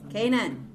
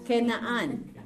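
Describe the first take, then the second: First: Canaan said the English way, KAY-nan; English pronunciation. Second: Canaan said the Hebrew way, ke-na-AN; Hebrew pronunciation. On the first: Teacher gives students the English name, Canaan as KAY-nan. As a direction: say "Canaan" in two syllables, stressed on the first. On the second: Teacher contrasts Hebrew with English, Canaan as ke-na-AN. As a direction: say "Canaan" in three syllables, ending on a long AN. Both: Shown as a demonstration. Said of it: "This is Canaan in English".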